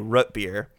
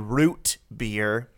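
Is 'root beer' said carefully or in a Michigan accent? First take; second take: Michigan; careful. First: It is said in a West Michigan accent. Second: It is said in a careful, deliberate pronunciation. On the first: This is the speaker's habitual regional way of saying it. The speaker calls it wrong. "my West Michigan ass, is every time gonna say root beer" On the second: The speaker is making sure to be understood. The speaker calls it right. "I have to very specifically say it that way"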